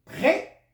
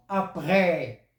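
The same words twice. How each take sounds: First: "près" said short with a rising pitch; contrasted vowel. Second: "après" with a long, drawn-out final vowel; contrasted vowel. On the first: Teacher contrasting vowel sounds, "près" short and rising. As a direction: lift "près" sharply as a contrast word. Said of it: "ce n'est pas comme après". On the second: Teacher contrasting vowel sounds, "après" drawn out at the end. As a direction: stretch the ending of "après", letting it fall. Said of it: "Les accents servent à modifier". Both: Shown as a demonstration.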